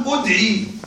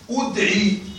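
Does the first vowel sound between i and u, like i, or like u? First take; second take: like u; like u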